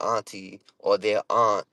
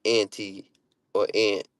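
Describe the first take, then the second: First: "auntie" and "aunt" with broad AH; local pronunciation. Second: "auntie" and "aunt" with short A; flat cat vowel in "aunt"; other pronunciation. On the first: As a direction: say "aunt" as ahnt, "auntie" as ahn-tee. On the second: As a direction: say "aunt" as ant, "auntie" as an-tee. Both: Shown as a demonstration. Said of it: "we don't say aunt".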